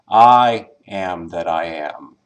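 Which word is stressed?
first I. The stress is on the first word, I.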